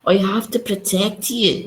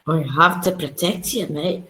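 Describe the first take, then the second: First: Higher, slow mocking Scottish accent; teasing Scottish accent imitation. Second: Put-on Scottish accent, better done; Scottish lilt, teasing the friend. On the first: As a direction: parrot the bad Scottish accent. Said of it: "What's that Scottish accent?". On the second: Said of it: "you do it much better".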